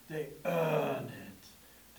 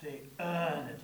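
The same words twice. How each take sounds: First: "earn" drawn out, slow and soft, in a low voice; stress on earn. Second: Said in the usual way. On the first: Retold or imitated. Preacher imitating the tagline, slow and weighty on "earn". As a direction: lean hard and slow on "earn". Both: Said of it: "there was always that emphasis on".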